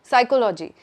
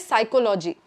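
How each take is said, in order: No difference in how they are said.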